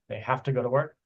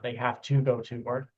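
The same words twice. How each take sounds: First: The words run together with stress on work. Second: Each word is said separately and very clearly. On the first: It sounds natural. The speaker calls it right. "chunking ... stress on work" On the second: It sounds like it is read off paper. The speaker calls it wrong. "the words are pronounced a little bit too clearly and not kind of like combined together"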